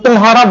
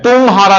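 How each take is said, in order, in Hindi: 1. पहला अक्षर छोटा बोला जाता है। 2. पहला अक्षर लंबा खींचकर बोला जाता है। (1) "तो तुम्हारा बोलते हैं" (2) "तुम्हारा नहीं बोलते, मतलब ताको खींचते नहीं है"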